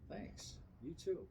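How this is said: It is said warmly, with real feeling.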